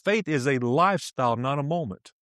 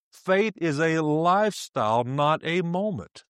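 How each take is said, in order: First: Said in the usual way. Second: Deliberate, stretched-out maxim; slow emphatic repeat. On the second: Real, not acted. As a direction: drive it home slowly, drawing out "lifestyle".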